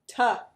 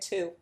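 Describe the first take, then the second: First: The word has a short reduced 'uh' vowel. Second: The word has a full 'oo' vowel. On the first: "Ta. That's right" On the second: "We don't say to"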